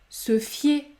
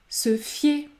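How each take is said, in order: The two takes are said the same way.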